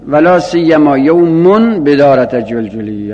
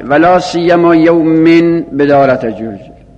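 First: The word after la siyyama ends in -un. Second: The word after la siyyama ends in -in. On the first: The word is read in the nominative case. "مستثنای بلا سیما به رفع هم خونده شده" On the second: The word is read in the genitive case. "مستثنای بلا سیما به جرم خونده شده"

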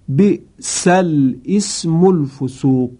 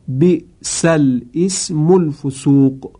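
Both takes have the same delivery.

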